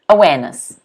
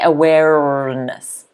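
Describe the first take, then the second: First: The R after the first vowel is silent. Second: The R after the first vowel is clearly pronounced. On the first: The speaker calls it right. "is that a silent R? ... yes, it is" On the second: The speaker calls it wrong. "You do not say awareness"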